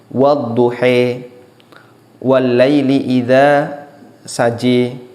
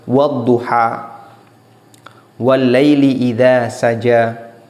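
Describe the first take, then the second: First: The final vowels are tilted toward an e sound. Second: The final vowels are pronounced as an open a. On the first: This follows a reading tradition that uses imalah. "dibaca dengan imalah, dibaca agak miring" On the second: This follows the common Hafs reading. "dan ini qiraah hafaz"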